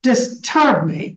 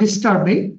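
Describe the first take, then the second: First: The stress is on the second syllable. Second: The stress is on the first syllable. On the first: The speaker calls it right. "you give a stress on the term here" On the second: The speaker calls it wrong. "instead of"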